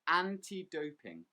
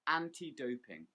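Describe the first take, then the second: First: The stress falls on the word anti. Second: The same.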